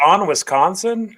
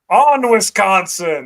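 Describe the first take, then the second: First: It is said plainly, without passion. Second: It is said with strong passion.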